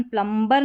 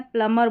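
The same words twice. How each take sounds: First: प्लम्बर with the b wrongly sounded; mispronounced प्लम्बर. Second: प्लम्बर said as "plummer"; silent b. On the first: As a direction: voice the b after m in प्लम्बर. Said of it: "प्लम्बर नहीं करना है". (प्लम्बर में ब बोलकर ग़लत उच्चारण) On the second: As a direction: drop the b from प्लम्बर. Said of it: "बी silent है". (प्लम्बर को 'प्लमर' बोलें) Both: Shown as a demonstration.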